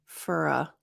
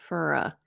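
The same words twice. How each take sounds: Both takes have the same delivery.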